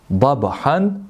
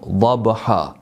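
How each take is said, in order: First: The word ends with an n sound. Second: The word ends with a long a. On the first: "Dabhan završava" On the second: "mi stajemo dabha"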